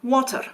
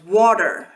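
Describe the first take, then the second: First: A Scottish accent with a different final R. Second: An American accent with a final R sound. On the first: "That is a different R than in America, but it's still pronounced" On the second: "which Americans pronounce water. So you have that final R"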